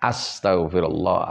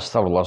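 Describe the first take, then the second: First: It is slow, with every letter fully articulated. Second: It is rushed, with letters blurred together. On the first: The speaker calls it right. "Jadi harus tartil dari alifnya" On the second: The speaker calls it wrong. "Jadi tidak boleh astagfirullah"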